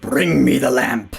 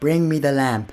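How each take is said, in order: First: It is said in a deep, menacing Jafar voice. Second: It is said in a weak, unthreatening Jafar voice.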